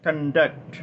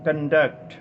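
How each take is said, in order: No difference in how they are said.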